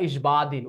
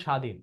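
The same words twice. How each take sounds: First: ইসবাদিন said with the b sounded, "is-baa-din"; wrong pronunciation. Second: স্বাধীন said "shaa-dhin", no b sound; silent bo-phola. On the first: Teacher showing pupils the mistake to avoid, ইসবাদিন with a spoken b. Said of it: "এমন হবে না ইসবাদিন". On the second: Teacher giving pupils the correct form, স্বাধীন as "shaa-dhin". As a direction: drop the b in স্বাধীন, open on a plain "sh". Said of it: "উচ্চারণ এরকম, উচ্চারণ হবে স্বাধীন". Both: Shown as a demonstration.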